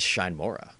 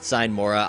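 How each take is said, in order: First: The first word starts with a 'sh' sound. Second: The first word starts with an 's' sound. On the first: The speaker calls it wrong. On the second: The speaker calls it right.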